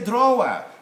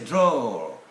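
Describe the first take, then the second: First: The W sound is pronounced in the word. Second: The W sound is silent in the word. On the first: The speaker calls it wrong. "it's not a drawer" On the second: The speaker calls it right. "it's a drawer"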